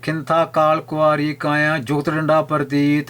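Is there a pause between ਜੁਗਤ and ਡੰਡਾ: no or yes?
no. ਜੁਗਤ runs straight into ਡੰਡਾ without a pause. The phrase makes no sense. The speaker calls it wrong. "ਇੱਦਾਂ ਪੜ੍ਹਨਾ ਕੋਈ ਅਰਥ ਨਹੀਂ ਬਣਦਾ"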